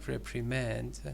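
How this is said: It is said with an American accent. "American pronunciation"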